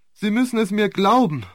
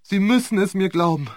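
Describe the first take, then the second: First: Higher, pleading harder, stress on glauben; second plea pushed higher; more desperate plea. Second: Desperate plea. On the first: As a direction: lean into glauben, begging. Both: A narrator's reading. Repeated plea, building.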